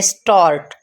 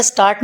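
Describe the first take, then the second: First: स्टार्ट with a rounded "aw" vowel; stand-alone स्टार्ट, vowel rounded toward "o"; "o" sound demo. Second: स्टार्ट with a plain "aa" vowel; quick स्टार्ट with open "aa"; wrong pronunciation. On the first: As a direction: model स्टार्ट as "stawrt", falling. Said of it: "ओ करके आवाज़ निकलेगी". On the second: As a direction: say स्टार्ट as spelt, "staart". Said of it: "आप इसका स्टार्ट नहीं पढ़ेंगे". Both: Shown as a demonstration.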